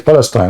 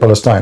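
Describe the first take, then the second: First: The name is said with Arabic pronunciation. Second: The name is said with English pronunciation. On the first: "in reality in Arabic you say Palestine" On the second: "You say Palestine"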